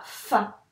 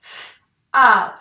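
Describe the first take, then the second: First: Said in the usual way. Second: "F" as a bare consonant, then loud "a"; sounds separated. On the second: Shown as a demonstration. Teacher breaking fa into two sounds, each separate. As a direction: split "F, a" into two isolated sounds. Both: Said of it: "nous avons donc deux sons".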